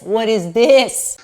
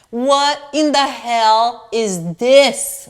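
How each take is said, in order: First: Laughing as the words come out; laughing disbelief. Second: Slow, drawn-out disbelief; stunned disbelief. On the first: Trying the dress on for viewers, laughing in disbelief. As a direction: break into a laugh on the question. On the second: Holding up the scam dress to the viewers, slow and stunned. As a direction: stretch each word out, staring at the dress. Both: Real, not acted.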